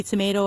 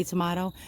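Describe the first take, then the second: First: Tomato with the middle vowel as in "may"; long A in tomato. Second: Tomato with the middle vowel as in "father"; broad AH in tomato. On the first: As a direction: say tomato as "tuh-MAY-toh". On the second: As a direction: say tomato as "tuh-MAH-toh". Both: Shown as a demonstration. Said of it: "how to pronounce it".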